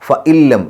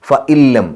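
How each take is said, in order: Both takes have the same delivery.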